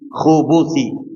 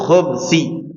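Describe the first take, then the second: First: A short u vowel follows the b. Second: No vowel follows the b. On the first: "kha-nya di dhamma, ba-nya di dhamma" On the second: "kha-nya di dhamma, ba-nya di sukun"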